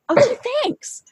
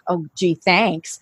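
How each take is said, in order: First: It is said in a sincere, grateful tone. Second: It is said in a flip, sarcastic tone.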